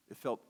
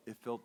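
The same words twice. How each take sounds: The two takes are said the same way.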